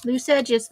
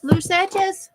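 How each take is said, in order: First: Said in the usual way. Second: High playful singsong repeat. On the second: Real, not acted. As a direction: sing it up high and light.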